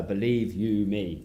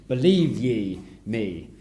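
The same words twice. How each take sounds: First: Said in the usual way. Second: "Believe ye me" said slowly, with "ye" in place of "you"; slow, archaic "Believe ye me"; old English phrasing. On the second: Shown as a demonstration. Preacher showing the old form of the phrase, slow archaic delivery. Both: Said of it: "with a kind of "ye" rather than "you".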